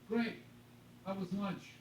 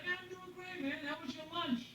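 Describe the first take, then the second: First: It sounds curt and hostile. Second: It sounds warm and friendly.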